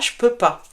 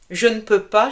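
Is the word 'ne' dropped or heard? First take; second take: dropped; heard. First: The word ne is left out entirely. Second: The word ne is clearly pronounced.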